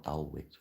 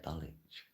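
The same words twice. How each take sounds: First: Dulwich as DULL-witch, w sounded; non-local pronunciation. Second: Dulwich as DULL-itch, silent w; local pronunciation. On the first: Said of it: "not Dulwich or whatever". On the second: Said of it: "That's how we say it". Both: Shown as a demonstration.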